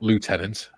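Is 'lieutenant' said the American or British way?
American. The first syllable sounds like 'loo'. The speaker calls it wrong. "is American pronunciation"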